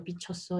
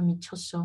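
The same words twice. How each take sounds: First: "bichoso" begun with a B; denasalized Korean variant. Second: "michoso" begun with an M; nasal Korean variant. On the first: Teacher showing learners a Korean mimique, "bichoso" with B. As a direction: say "bichoso" with B replacing M. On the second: Teacher showing learners a Korean mimique, "michoso" with M. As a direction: say "michoso" with a humming M onset. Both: Shown as a demonstration. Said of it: "des mimiques de prononciation".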